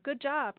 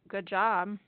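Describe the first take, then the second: First: It is said in a positive, sincere tone. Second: It is said in a negative, insincere tone. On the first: The praise is meant sincerely. "that's a positive" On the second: The praise is not meant sincerely. "that could be a negative"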